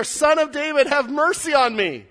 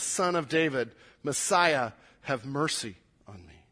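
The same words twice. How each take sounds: First: Loud, high-pitched cry for mercy; yelling. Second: Said in the usual way. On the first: Acted. Blind man cried out all the more, yelling. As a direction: yell the plea out over the crowd. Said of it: "he starts just yelling". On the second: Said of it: "Same prayer".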